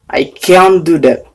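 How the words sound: It is said in an American English accent. "Itu dalam bahasa Inggris Amerika"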